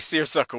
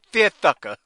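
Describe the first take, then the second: First: The s sounds are pronounced clearly. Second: The s sounds are pronounced as th.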